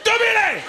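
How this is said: The name is said as a loud exclamation.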